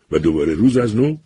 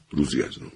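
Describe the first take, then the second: First: و دوباره روز از نو said with a rise on روز; first half of the saying, rising; rising first take. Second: روزی از نو falling and softer, settled; closing the saying with a weary fall; falling second take. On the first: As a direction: lift روز and leave it hanging. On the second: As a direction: drop روزی از نو down to a close. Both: A narrator's reading. Same phrase said twice.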